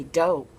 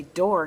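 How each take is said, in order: First: "dough" for door, the final r dropped; dialect pronunciation. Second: "door" with its final r sounded; careful standard pronunciation. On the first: Schoolmate correcting her speech, dialect pronunciation "dough" for door. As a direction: drop the r so door comes out "dough". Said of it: "You're supposed to say dough". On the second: Quoting a schoolmate's correction, careful standard pronunciation of "door". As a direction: pronounce "door" in full, r and all. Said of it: "that's not how you're supposed to talk". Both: Retold or imitated.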